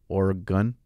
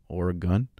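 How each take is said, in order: Both takes have the same delivery.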